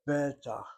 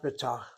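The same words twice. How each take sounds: First: The stress is on the first syllable. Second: The stress is on the last syllable. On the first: The speaker calls it right. "second to last syllable gets emphasized" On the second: The speaker calls it wrong. "Not betach"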